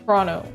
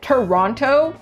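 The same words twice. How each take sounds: First: The word is shortened, with sounds dropped. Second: Every syllable of the word is fully pronounced. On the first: The speaker sounds like a local of the city. The speaker calls it right. "There's no O" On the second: The speaker sounds like an outsider to the city. The speaker calls it wrong. "I didn't say Toronto like a Torontonian"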